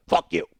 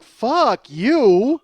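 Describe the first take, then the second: First: Low, gruff parting curse; Oscar the Grouch. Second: High, loud drawn-out outburst; indignant. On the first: Stranger's parting shot through the hole, grouchy. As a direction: growl it like a grumpy puppet. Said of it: "Just Oscar the Grouch". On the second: Comic's inner answer to the stranger, indignant. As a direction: belt it out in outrage. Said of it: "I'm indignant". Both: Acted.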